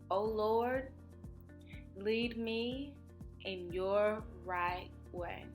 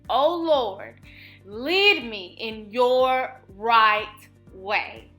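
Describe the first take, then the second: First: It is said at a normal speaking volume. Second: It is shouted loudly and proudly.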